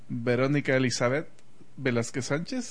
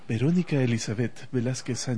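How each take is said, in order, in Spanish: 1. El nombre se lee con voz normal. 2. El nombre se lee con voz de locutor.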